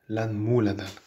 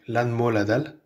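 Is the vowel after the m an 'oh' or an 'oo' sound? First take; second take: oo; oh. First: The vowel after the m sounds like 'oo'. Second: The vowel after the m sounds like 'oh'. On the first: The speaker calls it wrong. "et non pas" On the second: The speaker calls it right. "M O O qu'on prononce mo"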